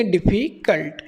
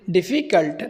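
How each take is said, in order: First: Said in the usual way. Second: डिफ़िकल्ट split into two parts, each said separately; broken into syllables. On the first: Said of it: "बच्चों के सामने हम बोलेंगे". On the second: Shown as a demonstration. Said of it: "two part में break कर लेंगे". (डिफ़िकल्ट को दो हिस्सों में तोड़कर बोलें)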